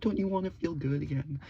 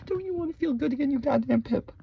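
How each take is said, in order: First: Said in the usual way. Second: Much higher, fast put-on squeal; a hammed-up high cartoon voice; mock squeaky voice. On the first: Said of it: "repeated in high voice". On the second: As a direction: squeal it in a silly falsetto.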